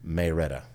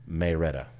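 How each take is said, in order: First: It is said with a Southern accent. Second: It is said with a Southern accent.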